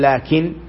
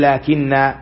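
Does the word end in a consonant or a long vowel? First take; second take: consonant; long vowel. First: The word ends on the n with no vowel. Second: The word ends on a long a vowel. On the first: The speaker calls it wrong. "ما يقول لكن" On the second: The speaker calls it right. "يقول لكن"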